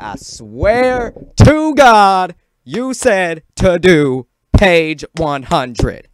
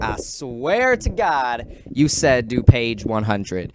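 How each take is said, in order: First: Slow, high, full-volume shout; outraged yell. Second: Drawn-out, emphatic retold protest; insistent protest. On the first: Retold or imitated. Student arguing with the Spanish teacher over homework, outraged yelling. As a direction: bellow each word in drawn-out outrage. Retold protest blown up into yelling. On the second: Student protesting to the Spanish teacher about homework, insistent. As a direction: plead the case, stretching the words.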